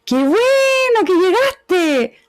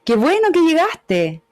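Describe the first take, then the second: First: Very high, slow, sweeping "Qué bueno que llegaste"; informal rising melody. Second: "Qué bueno que llegaste" higher but shorter and more restrained; formal melody. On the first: Teacher contrasts the casual melody for a formal setting, high and slow. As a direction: stretch "bueno" way up and let the phrase fall slowly. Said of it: "digo el de arriba". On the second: Teacher contrasts the formal greeting, restrained and measured. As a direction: keep "bueno" lifted but contained, a measured tune. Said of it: "digo el de abajo". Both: Shown as a demonstration.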